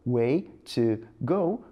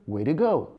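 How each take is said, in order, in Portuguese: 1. O t em 'to' é um t claro. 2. O t em 'to' vira um flap rápido.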